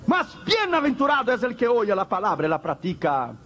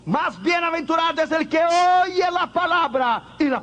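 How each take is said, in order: First: Said in the usual way. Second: "Más bienaventurado" rung out high and loud; emphatic proclamation. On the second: Shown as a demonstration. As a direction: preach "oye" high and strong. (proclamado en alto con énfasis)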